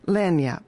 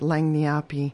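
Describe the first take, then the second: First: The word ends on the 'p' sound. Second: The word ends with an extra 'ee' syllable. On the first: The speaker calls it right. "Lanyap is how you say it" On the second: The speaker calls it wrong. "Lanyapi is how I used to say it. That's not how you say it"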